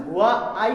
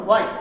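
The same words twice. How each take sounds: First: "হোয়া, আই" as two separate pieces; split word. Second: Said in the usual way. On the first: Shown as a demonstration. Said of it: "ভাঙার system". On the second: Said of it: "এক উচ্চারণেই বলতে হয়".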